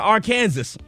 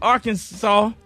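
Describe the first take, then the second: First: The name is said just as it is spelled. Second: The name is said the usual, familiar way.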